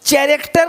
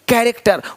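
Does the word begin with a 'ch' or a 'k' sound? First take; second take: ch; k. First: The word begins with a 'ch' sound. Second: The word begins with a 'k' sound. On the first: The speaker calls it wrong. "नहीं" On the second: The speaker calls it right. "सी एच भी का है"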